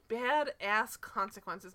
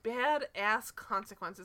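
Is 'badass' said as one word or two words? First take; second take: two words; two words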